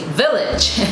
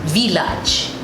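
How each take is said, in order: First: It is said with an English pronunciation. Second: It is said with a French pronunciation. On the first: "in English, we would say village" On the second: "in French, it is pronounced as village"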